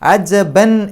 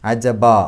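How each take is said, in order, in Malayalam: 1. ഈ വാക്ക് n ശബ്ദത്തിലാണ് അവസാനിക്കുന്നത്. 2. ഈ വാക്ക് നീട്ടിയ അ സ്വരത്തിലാണ് അവസാനിക്കുന്നത്. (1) "അജബൻ എന്നാണ്" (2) "ഫത്തഹ് ഇട്ടിട്ട് രണ്ടക്ഷരത്തിൻ്റെ ദൈർഘ്യം നീട്ടുക"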